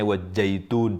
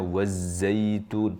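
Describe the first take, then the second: First: The middle consonant is a j sound. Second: The middle consonant is a z sound. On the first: The speaker calls it wrong. "mengucapkannya wajaitun, jadi jim misalnya" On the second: The speaker calls it right. "Harusnya wazaitun"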